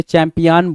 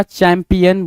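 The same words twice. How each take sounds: First: चैंपियन ending in a long "-aan"; misspelt pronunciation. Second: Said in the usual way. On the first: Shown as a demonstration. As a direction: say चैंपियन as "champi-AAN", as if spelt with A. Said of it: "हमने C H ए M P I ए N बोला है". (चैंपियन का अंत "आन" से, गलत उच्चारण) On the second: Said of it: "हमने चैंपियन बोल दिया".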